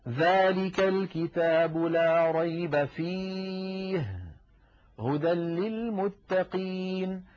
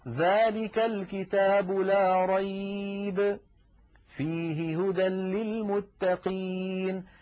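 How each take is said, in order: First: There is a pause after the word fihi. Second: There is a pause after the word rayba. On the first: There is no doubt in the Book; it is guidance. "لا ريب فيه، فصارت كلمة فيه متعلقة بجملة لا ريب" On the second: No doubt; in it is guidance for the pious. "فلذلك كلمة فيه تتعلق بالجملة الثانية"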